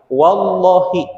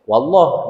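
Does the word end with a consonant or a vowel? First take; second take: vowel; consonant. First: The word ends with a short i vowel. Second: The word ends on a bare consonant. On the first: The oath is complete when the word is said this way. The speaker calls it right. "dengan tidak melafadzkan kasroh di akhir kalimat" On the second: The oath is incomplete when the word is said this way. The speaker calls it wrong. "kalau di waqaf ya wallah, ... menjadi sukun"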